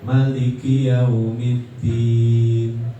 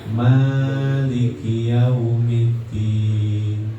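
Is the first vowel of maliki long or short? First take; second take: short; long. First: The first vowel of maliki is kept short. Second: The first vowel of maliki is drawn out long. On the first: "boleh dipendekin" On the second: "boleh dipanjangin"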